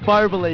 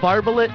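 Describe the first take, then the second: First: The name ends with a 'lay' sound. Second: The name ends with a 'lit' sound. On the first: The speaker calls it right. "His name is Barbalay. You got to pronounce it right" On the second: The speaker calls it wrong. "I used To call him Barbalit"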